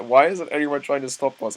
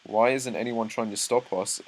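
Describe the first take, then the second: First: Voiced as the character, higher and louder; playing Eren's thought with a put-on voice; Eren's inner voice. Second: Said in the usual way. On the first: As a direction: act out Eren wondering aloud, amused. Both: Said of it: "This is Eren thinking this".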